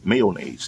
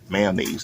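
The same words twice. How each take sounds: First: Every syllable of the word is pronounced. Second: Some syllables of the word are dropped. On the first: This is the standard pronunciation. "to be properly pronounced" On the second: This is how it is said in the neighborhood. "We don't need to pronounce all of the syllables"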